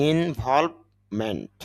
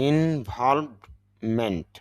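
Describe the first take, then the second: The two takes are said the same way.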